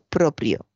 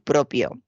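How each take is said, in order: First: The second syllable starts with p then r. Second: The second syllable starts with a plain p. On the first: The speaker calls it right. "con PR en la segunda sílaba" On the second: The speaker calls it wrong. "no se debe decir de motu propio"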